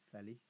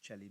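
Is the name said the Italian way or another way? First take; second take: another way; Italian. First: The name is said with non-Italian pronunciation. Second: The name is said with Italian pronunciation. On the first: The speaker calls it wrong. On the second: The speaker calls it right. "Celli, I think, is Italian"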